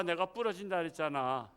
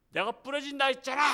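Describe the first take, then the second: First: Said in the usual way. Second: Higher, louder mock gloat; gloating shout. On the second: Arm-twisting man gloats at his victim, mock shout. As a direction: throw it back, higher and louder.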